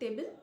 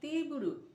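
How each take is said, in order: First: It is said with English T and L sounds. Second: It is said Japanese-style, with soft T and R.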